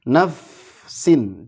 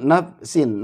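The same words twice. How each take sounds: First: The s sound flows with continuous air. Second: The s sound is cut short and held. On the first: The speaker calls it right. "Jadi harus mengalir dua-duanya nafsin" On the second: The speaker calls it wrong. "jangan nafsin, nafsin jangan ketahan"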